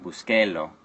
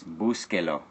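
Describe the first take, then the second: First: Busquelo with the stress moved off the first syllable, bus-QUE-lo; wrong stress. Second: Búsquelo with the stress on the first syllable, BÚS-que-lo. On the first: Teacher showing students the wrong stress on busquelo. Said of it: "not busquelo". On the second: Teacher showing the class the stress of Búsquelo. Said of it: "Where did you hear the emphasis?". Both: Shown as a demonstration.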